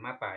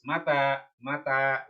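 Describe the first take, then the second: First: "mata" read the wrong way, as the word meaning "died". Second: "mata" read the right way, as the question word "when"; correct reading. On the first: Teacher warning students off a wrong "mata", quiet. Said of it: "bukan mata, ya". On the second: Teacher showing students how to read "mata", deliberate. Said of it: "ingat, ya, bacanya mata". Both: Shown as a demonstration.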